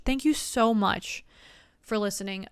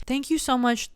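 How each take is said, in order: First: Slow, heartfelt thank you; slow sincere thanks. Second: Said in the usual way. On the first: Real, not acted. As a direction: draw it out with sincerity.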